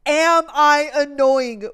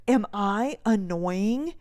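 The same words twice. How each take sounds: First: Loud, drawn-out, emphatic question; louder, slower repeat. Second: Over-enunciated slow question; slow, drawn out. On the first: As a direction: say it loud and slow, spacing the words. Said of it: "I said". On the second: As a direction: stretch each word out slowly. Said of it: "I said it again". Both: Retold or imitated.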